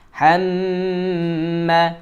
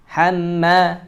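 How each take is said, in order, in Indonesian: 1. Huruf m ditahan panjang dengan dengung hidung. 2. Huruf m dipotong pendek dengan sedikit dengung. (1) "wajib kita gunnahkan dengan tempo dua sampai tiga harokat" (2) "itu kurang sempurna gunnahnya"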